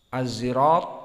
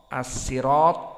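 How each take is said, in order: First: The word is said with a z sound. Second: The word is said with a plain s sound.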